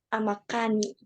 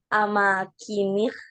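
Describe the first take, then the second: First: The vowel after the k is 'a'. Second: The vowel after the k is 'i'. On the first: The speaker calls it wrong. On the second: The speaker calls it right. "Itu yang benar"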